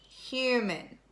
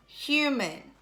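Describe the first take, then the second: No difference in how they are said.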